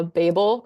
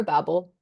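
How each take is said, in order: First: Babel said BAY-bul, long first vowel; British pronunciation. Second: Babel said BAB-ul, short first vowel; American pronunciation. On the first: Guest weighing two pronunciations, Babel as British BAY-bul. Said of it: "Babel is the British pronunciation". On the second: Guest weighing two pronunciations, Babel as American BAB-ul. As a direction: say Babel to rhyme with babble. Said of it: "Babel is the American one". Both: Shown as a demonstration.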